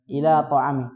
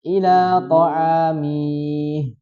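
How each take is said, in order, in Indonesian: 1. Vokal terakhir dari kata terakhir dibaca pendek. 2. Vokal terakhir dari kata terakhir dibaca panjang. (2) "Jadi tidak dibaca ila ta'amih"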